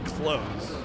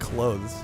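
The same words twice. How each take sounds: First: The word is said with a th sound. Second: The word is said without a th sound. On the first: "You're supposed to pronounce the th" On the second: "I've only ever said it clothes"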